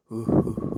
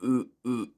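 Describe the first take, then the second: First: "ooh" started sharply from tense vocal folds; tense glottal ooh. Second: "ooh" said loose, without the glottal catch. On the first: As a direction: clip each "ooh" on with the glottis. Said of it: "So the vocal folds go". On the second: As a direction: let each "ooh" flow without tensing the throat. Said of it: "rather than". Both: Shown as a demonstration.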